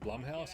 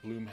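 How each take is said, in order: First: The first syllable rhymes with plum. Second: The first syllable does not rhyme with plum. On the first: "Is that how you pronounce it, Blumhouse? ... like Plum" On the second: "I've always called it Bloomhouse"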